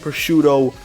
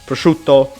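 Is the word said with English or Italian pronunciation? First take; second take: English; Italian. First: It is said with English pronunciation. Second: It is said with Italian pronunciation. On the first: This is the anglicized pronunciation. "not to upset the Western fans" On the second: This is the original pronunciation. "this is actually how this word is pronounced"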